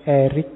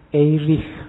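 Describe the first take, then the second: First: The name ends with a hard k sound. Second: The name ends with a soft, breathy ch sound. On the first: This is the American reading. "orang Amerika membacanya lebih suka pakai Eric, jadi belakangnya K" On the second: This is the original German reading. "orang Jerman membacanya Erich Fromm"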